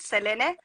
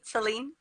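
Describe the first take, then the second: First: The name is said with a Spanish pronunciation. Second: The name is said with an English pronunciation. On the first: "in Spanish we pronounce it" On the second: "you can call me Celine if that's how you want to say it too"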